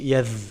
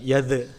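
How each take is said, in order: First: The final consonant flows with continuous air. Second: The final consonant is bounced with a release. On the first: The speaker calls it right. "tapi yadh" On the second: The speaker calls it wrong. "tidak memantul, bukan yadh"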